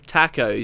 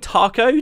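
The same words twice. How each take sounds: First: It is said in a plain, everyday way. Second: It is said in a posh upper-class British way. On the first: The speaker calls it right. "Taco sounds more natural to me to say" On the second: The speaker calls it wrong. "taco sounds like incredibly pompous British, very very upper class"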